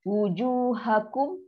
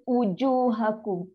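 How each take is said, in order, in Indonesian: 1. Kata itu dimulai dengan bunyi w yang bulat. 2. Kata itu dimulai dengan vokal biasa, tanpa w. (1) "Sama juga" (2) "Jadi baca ujuhakum. Uju. Ha, salah lah"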